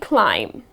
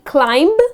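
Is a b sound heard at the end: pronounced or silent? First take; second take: silent; pronounced. First: No b sound is heard at the end. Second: A b sound is heard at the end. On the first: The speaker calls it right. "It's just going to be climb. Alright, that's the correct pronunciation" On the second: The speaker calls it wrong. "you are not going to pronounce the last B here. It's not going to be climb"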